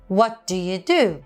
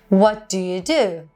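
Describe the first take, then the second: Both takes have the same delivery.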